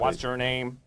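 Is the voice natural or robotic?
robotic. It is said in a put-on robot voice.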